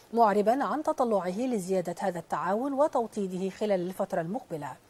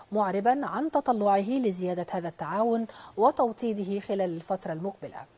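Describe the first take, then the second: No difference in how they are said.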